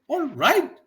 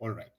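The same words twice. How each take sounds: First: It sounds like a question being asked. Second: It sounds like a statement of acceptance. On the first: The speaker is asking something. "means you are asking" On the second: The speaker understands and agrees. "I understand. I agree with you"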